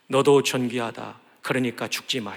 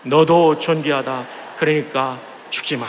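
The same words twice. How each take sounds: First: Tender encouragement. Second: Very slow, deliberate blessing; earnest slow encouragement. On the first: Pastor modelling a tender word to a despairing neighbour. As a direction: soften it like comforting a friend. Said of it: "그래서 우리 이렇게 한번 격려합시다". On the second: Congregation cue, slow and earnest. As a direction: stretch each word out with care. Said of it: "시작". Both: Shown as a demonstration.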